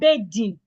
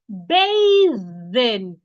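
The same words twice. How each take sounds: First: The th sound is made without the tongue out. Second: The th sound is made with the tongue out. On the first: The speaker calls it wrong. "It's not bathing" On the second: The speaker calls it right. "It's bathing. Your tongue should come outside"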